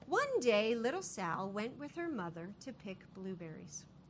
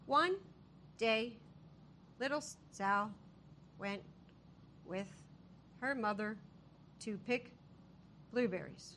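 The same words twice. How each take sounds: First: It is read smoothly and fluently. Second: It is read in a choppy, halting way.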